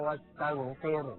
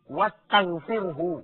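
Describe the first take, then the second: First: The word ends on 'r' with no final syllable. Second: The word ends with an added 'hu' syllable. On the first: The speaker calls it wrong. "Bacaan itu membuang satu huruf" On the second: The speaker calls it right. "ada domir. Huwa"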